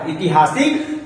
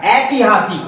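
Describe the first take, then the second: First: ऐतिहासिक opening on a short i; rejected pronunciation. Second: ऐतिहासिक opening on "ai"; corrected pronunciation. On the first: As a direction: say ऐतिहासिक as "i-ti-haa-sik". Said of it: "नहीं होता है". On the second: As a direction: say ऐतिहासिक as "ai-ti-haa-sik". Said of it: "ऐतिहासिक होता है". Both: Shown as a demonstration.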